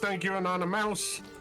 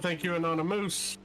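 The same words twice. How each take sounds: First: It is said in an American accent. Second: It is said in a Canadian accent. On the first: "if you're from the States" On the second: "If you're from Canada"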